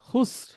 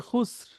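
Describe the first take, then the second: The two takes are said the same way.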